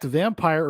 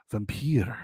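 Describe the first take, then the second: First: Said in the usual way. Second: Vampir with a stressed second syllable, vam-PEER; Serbian pronunciation. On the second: Shown as a demonstration. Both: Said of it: "originates from a Serbian word".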